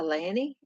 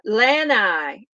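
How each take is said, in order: First: The word ends with an 'ee' sound. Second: The word ends with an 'eye' sound. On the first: The speaker calls it wrong. "Am I saying it correctly, or is that the Southern way I'm saying it?" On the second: The speaker calls it right. "that's how you say it"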